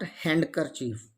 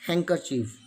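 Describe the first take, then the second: First: "handkerchief" as hand-ker-chief, D pronounced; D wrongly sounded. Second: "handkerchief" as hang-ker-chief, no D; silent D. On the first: Teacher shows the mistake to avoid, handkerchief with sounded D. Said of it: "Not handkerchief". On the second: Teacher corrects the mistake, handkerchief with silent D. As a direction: leave the D out of "handkerchief". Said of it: "It's pronounced". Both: Shown as a demonstration.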